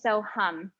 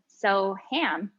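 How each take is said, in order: First: The second vowel sounds like the 'u' in 'hum'. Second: The second vowel sounds like the 'a' in 'ham'. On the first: The speaker calls it right. "the A's are pronounced like U's" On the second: The speaker calls it wrong. "it's not pronounced ham"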